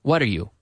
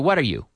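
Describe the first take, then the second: First: The last word is a full 'you'. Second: The last word is a full 'you'.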